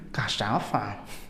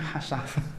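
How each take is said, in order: First: The word begins with a K sound. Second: The word begins with an H sound. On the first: The speaker calls it wrong. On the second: The speaker calls it right. "adanya hasafa"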